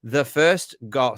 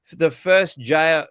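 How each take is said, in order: First: "The first goal" said slowly with goal, the corrected word; "goal" clearly in place of the slip "jail", drawn out. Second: "the first jail" said slowly with jail, a slip for goal; "jail" comes out where "goal" was meant, drawn out; slip of the tongue. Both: Shown as a demonstration. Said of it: "sorry, first goal".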